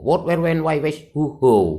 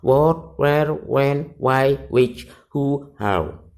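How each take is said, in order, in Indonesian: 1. Daftar itu dibaca sangat cepat. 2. Daftar itu dibaca dengan kecepatan normal. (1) "dibaca cepat begitu" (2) "tiga kali pertama dibaca biasa"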